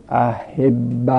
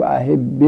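First: احب said slowly as a-HEB-ba, ending in "a"; doubled b in احب, then a short "a"; fatha ending. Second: احب said as a-HEB-be, ending in "e"; doubled b in احب, then a short "e"; kasra ending. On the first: Teacher showing students the lightest vowel, احب with fatha ending. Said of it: "فتحه بدی، اخف حرکات". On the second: Teacher showing students the two-sukun rule, احب with kasra ending. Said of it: "کسره بدی". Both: Shown as a demonstration.

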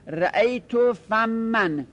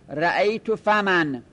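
First: Slow رأیت فمن with a held doubled m in فمن; doubled mim. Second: فمن with open fa and one quick m, said slow; light single mim. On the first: Teacher showing the form with a doubled m, slowly. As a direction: say فمن as fam-man, holding the m long. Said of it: "میمش تشدید بدید". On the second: Teacher showing the unstressed form, slow with a single m. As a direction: say فمن as fa-man with a short single m, no doubling. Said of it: "بگید فمن". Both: Shown as a demonstration.

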